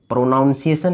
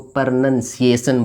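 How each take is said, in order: First: The second syllable sounds like 'noun'. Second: The second syllable sounds like 'nun'. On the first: The speaker calls it wrong. "प्रोनाउंसिएशन नहीं बोलेंगे" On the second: The speaker calls it right. "इसको प्रोनाउंसिएशन बोलेंगे"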